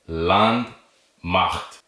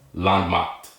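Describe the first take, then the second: First: It is said slowly with a pause inside. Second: It is said quickly without any pause inside.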